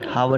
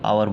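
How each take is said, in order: First: The word begins with an h sound. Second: The word begins with a vowel sound. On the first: The speaker calls it wrong. "हावर नहीं बोलते इसको" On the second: The speaker calls it right. "आवर बोलेंगे"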